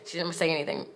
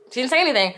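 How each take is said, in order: First: Much softer, trailing away; quiet, low-key aside; hushed disbelief. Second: "anything" in a higher-pitched, emphatic line; higher, full-voiced "She didn't say anything"; emphatic repeat. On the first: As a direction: let it drop almost under your breath. Repeats the line, deflated then emphatic. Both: Real, not acted.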